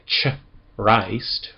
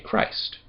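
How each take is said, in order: First: It begins with a soft 'ch' sound. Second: It begins with a hard 'k' sound. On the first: The speaker calls it wrong. "We don't say ch-rist" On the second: The speaker calls it right. "we say Christ. It's a hard C H"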